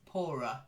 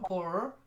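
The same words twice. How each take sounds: First: The word ends with a weak uh sound. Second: The word ends without a weak uh sound. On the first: The speaker calls it right. "It's like little uh at the end" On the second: The speaker calls it wrong. "Not poorer"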